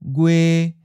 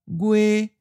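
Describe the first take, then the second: First: The pitch stays mid and level. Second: The pitch stays high and level. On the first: "a mid flat" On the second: "In other regions, it may sound like a high flat"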